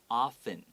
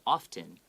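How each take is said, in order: First: The t sound is left silent. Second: The t sound is pronounced. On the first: "you don't need to pronounce it" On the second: "that's okay as well"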